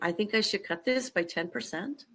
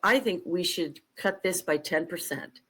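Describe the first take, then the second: First: It ends with a rising question tune. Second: It ends with a falling statement tune.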